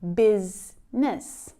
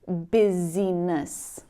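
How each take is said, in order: First: The word is said in its standard pronunciation. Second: The word is sounded out following its spelling. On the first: The speaker calls it right. "pronounce it correctly" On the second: The speaker calls it wrong. "looking at the letters in this word and trying to pronounce them, maybe saying"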